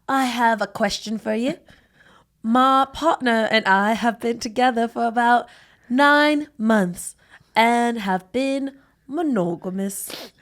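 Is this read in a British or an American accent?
British. It is read in a put-on British accent.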